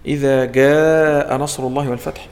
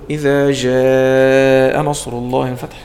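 First: The j is a hard g sound. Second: The j is a soft zh sound. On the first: "هذا تقول له عطش الجيم" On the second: "هذا أقول له إيه شدد الجيم"

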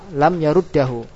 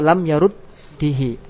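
First: The vowel after the doubled d is a. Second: The vowel after the doubled d is i. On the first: "Boleh enggak dibaca fathah dan kasrah? Boleh menurut pendapat ulama ahli kufa" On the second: "Boleh enggak dibaca fathah dan kasrah? Boleh menurut pendapat ulama ahli kufa"

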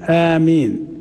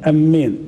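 First: The first vowel is long and the m is single. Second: The first vowel is short and the m is doubled. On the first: The speaker calls it right. "بالمد والتخفيف" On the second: The speaker calls it wrong. "تشديد، لكن الهمزة ما تمدهاش"

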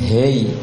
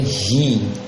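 First: The vowel sounds like e. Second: The vowel sounds like i. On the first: The speaker calls it wrong. "and hey" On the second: The speaker calls it right. "tapi hi"

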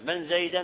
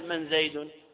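First: The name ends with an 'a' vowel. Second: The name ends with a 'u' vowel. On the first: The word is repeated exactly as it was heard. "من زيدا على الحكاية" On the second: The word takes its own regular case ending. "على أنه بالرفع"

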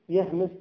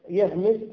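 The two takes are said the same way.

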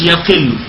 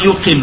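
First: The first vowel is a, yaqill. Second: The first vowel is u, yuqill. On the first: The speaker calls it wrong. "مش يقل" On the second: The speaker calls it right. "ضم حرف المضارعة يقل"

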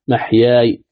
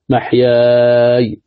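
First: The long vowel is held only briefly. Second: The long vowel is held a medium length. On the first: "قصر" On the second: "توسط"

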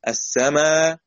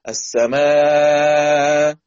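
First: The final long vowel is held for two counts. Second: The final long vowel is held for four counts. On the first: "حركتين" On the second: "أربعة"

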